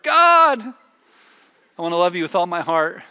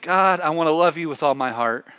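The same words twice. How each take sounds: First: Every single word is said with strong emphasis. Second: The words are said with ordinary, even emphasis.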